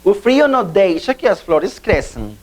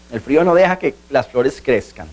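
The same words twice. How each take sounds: First: Said in the usual way. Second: Lower-pitched Spanish translation. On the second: Shown as a demonstration. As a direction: give the example in Spanish. Example repeated in Spanish translation.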